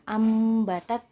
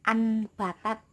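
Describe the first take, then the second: First: The nasal before the b sounds like m. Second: The nasal before the b sounds like n. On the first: The speaker calls it right. "suaranya itu mim sukun" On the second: The speaker calls it wrong. "bukan anbatat ya"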